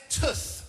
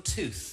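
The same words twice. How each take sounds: First: "tooth" with a short Brummie vowel, like "tuth"; Birmingham pronunciation. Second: Said in the usual way. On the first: Shown as a demonstration. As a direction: say "tooth" to rhyme roughly with "puss". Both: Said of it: "I say tooth rather than tooth".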